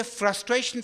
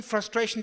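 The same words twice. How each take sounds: First: Frustration pressed out with rising pitch; emphatic frustration. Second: Said in the usual way. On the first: Real, not acted. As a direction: lean hard into frustration, pitch climbing. Repeated word for emphasis.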